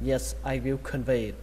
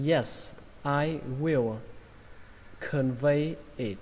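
First: Quick natural reading; read fast. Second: Slowly, word by word; slow careful reading. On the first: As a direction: say it at natural speed. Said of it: "Và câu này đọc nhanh là". (đọc nhanh tự nhiên) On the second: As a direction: spell it out slowly for learners. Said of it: "đọc nhanh là". (đọc chậm từng chữ) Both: Shown as a demonstration.

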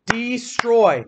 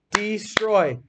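First: Destroy drawn out slowly, each part clear; stretched word. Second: Said in the usual way. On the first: Shown as a demonstration. Teacher drawing out destroy slowly for the class. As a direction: say destroy slowly so kids hear the oi. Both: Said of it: "Is that getting circle or square?".

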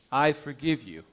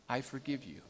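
First: Tender reassurance to a dying man; gentle forgiveness. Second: Much softer "I forgive you", fading almost to nothing; whispered-soft forgiveness fading out; softer still. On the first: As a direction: say "I forgive you" gently, stressing "I". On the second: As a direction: let "I forgive you" trail away to a near hush. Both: Acted. Pastor embraces dying man.

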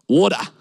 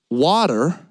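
First: "Water" with rounded vowel and no final r, Australian; Australian accent. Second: "Water" with a lower voice and Canadian r; Canadian accent. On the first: Barista showing his own speech, Australian accent on "Water". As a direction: say "Water" as an Aussie, "waw-tuh". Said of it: "I would say". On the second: Imitating Canadian cafe customers, Canadian accent on "Water". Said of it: "They would say". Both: Shown as a demonstration.

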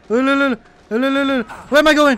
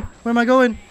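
First: Mock wail. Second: Said in the usual way. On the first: Panicked in game.

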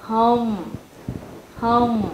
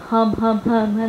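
First: "Home" with a full "oh-oo" glide closing into M; correct "Home". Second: "home" with a short, shallow vowel like "hơm", no O glide; wrong "home". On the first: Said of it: "nó là âm O rồi". (đọc đúng "Home", âm O tròn đầy rồi ngậm M) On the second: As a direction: mispronounce "home" as a quick "hơm". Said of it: "chúng ta không đọc là". (đọc sai "home" thành "hơm", miệng mở ít) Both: Shown as a demonstration.

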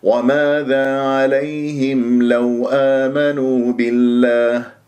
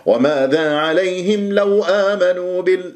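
First: Slow, smooth chant at speaking pitch; unforced, drawn-out tajweed phrase; correct inviting recitation. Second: Higher-pitched faulty recitation; mock-scolding recitation, raised pitch; wrong, as if scolding. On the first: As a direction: invite them gently, without shouting. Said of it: "بهذه الطريقة". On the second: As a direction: chant it higher, as if calling them out. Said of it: "ما تصرخ عليهم". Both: Shown as a demonstration.

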